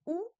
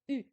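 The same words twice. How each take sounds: First: "ou" as a back, rounded oo vowel; U without umlaut. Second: "U" as a front, rounded French u; U with umlaut. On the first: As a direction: say "ou" like French ou. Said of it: "le U tout seul". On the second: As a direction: say "U" like ü, tongue forward. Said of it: "le U avec des umlauts". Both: Shown as a demonstration.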